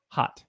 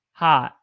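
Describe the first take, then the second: First: Said in the usual way. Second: "hot" with a held vowel, Southern accent; Southern "hot", drawn out and louder. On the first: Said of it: "regular one is". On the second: Shown as a demonstration. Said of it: "Southern accent".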